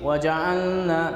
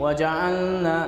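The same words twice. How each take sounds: First: The L merges into a nasal N sound. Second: The same.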